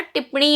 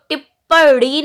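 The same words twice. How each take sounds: First: टिप्पणी said ṭippaṇī, with the double p and nasal ṇ; टिप्पणी with a clear retroflex ṇ; correct form. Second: टिप्पणी said as ṭipaḍi, with a plain ḍ and no nasal ṇ; टिप्पणी with a hard ḍ sound, the mistaken way; wrong form. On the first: Teacher giving students the correct टिप्पणी, ṭippaṇī. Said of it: "होता है". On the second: Teacher showing students the wrong टिप्पणी, said as ṭipaḍi. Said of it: "नहीं होता". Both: Shown as a demonstration.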